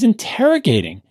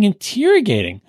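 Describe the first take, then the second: First: The second syllable has a short vowel sound. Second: The second syllable has a long E sound. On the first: The speaker calls it right. "The word is interrogating" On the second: The speaker calls it wrong. "why do you keep saying interrogating? ... he really does say a long E"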